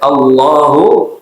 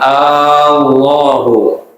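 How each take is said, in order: First: The first vowel has normal short length. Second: The first vowel is drawn out long. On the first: The speaker calls it right. "Panjangnya normal-normal saja ya" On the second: The speaker calls it wrong. "dengan dipanjangkan"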